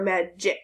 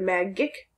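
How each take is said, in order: First: The g sounds like j, as in gem. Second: The g is hard, as in got. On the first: "J sound" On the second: "Is it a G like got or J like gem?"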